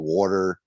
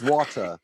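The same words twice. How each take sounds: First: The word is said in a Northwest US accent. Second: The word is said in an English accent. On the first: "Northwest has like you know when they say water, it could be water" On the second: "in England it's water"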